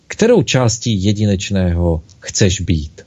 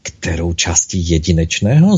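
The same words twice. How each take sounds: First: Gentle question, pitch falling away after "Kterou"; open question. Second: Low start, rising on "jedinečného"; echoing, unsure, with "jedinečného" going up; puzzled echo question. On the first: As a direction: ask it evenly, "Kterou" leading, the end settling down. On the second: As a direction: repeat it back, lifting "jedinečného" into a question. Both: A narrator's reading. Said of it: "Zopakovala malinká duše".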